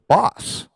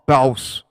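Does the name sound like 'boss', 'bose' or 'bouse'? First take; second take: boss; bouse. First: The name has a short 'o' vowel. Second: The name has an 'ow' vowel. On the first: "we're pronouncing that one wrong too" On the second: "or ba- Baus"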